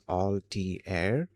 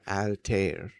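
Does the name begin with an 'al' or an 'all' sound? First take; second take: all; al. First: The first syllable sounds like 'all'. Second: The first syllable sounds like 'al' in alligator. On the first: "with that all sound at the start" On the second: "al, short like uh, alligator"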